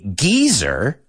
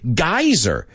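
First: It is said with a British pronunciation. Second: It is said with an American pronunciation. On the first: "The British say geyser" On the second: "Americans say geyser"

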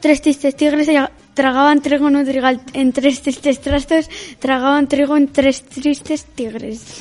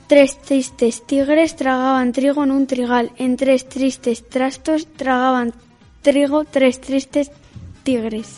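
First: It is said fast. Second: It is said at normal speed.

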